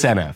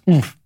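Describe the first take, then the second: First: The name is said as two separate letters. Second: The name is said as one short word. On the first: The speaker calls it right. "It's [name]" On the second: The speaker calls it wrong. "or is it pronounced oomph?"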